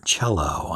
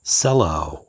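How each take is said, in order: First: "cello" said CHELL-oh; CH pronunciation. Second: "cello" said with an S, SELL-oh; soft-C pronunciation. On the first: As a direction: start "cello" with a ch sound. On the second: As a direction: start "cello" with an s sound. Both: Shown as a demonstration. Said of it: "not sure which way it's pronounced".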